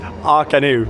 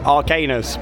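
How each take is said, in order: First: The word ends without an s sound. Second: The word ends with an s sound. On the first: This is how the show's name is said. The speaker calls it right. "but I believe it's Arcanu" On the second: This is how the written name looks. The speaker calls it wrong. "You look at that and think Arcanus"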